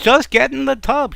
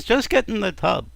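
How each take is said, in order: First: Loud, high-pitched exasperated order; husband losing patience, voice raised high; exasperated shout. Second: Higher-pitched impatient order; husband pressing his wife, not yet shouting; insistent. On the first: Husband insisting again, louder. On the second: Husband insisting, first time. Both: Acted.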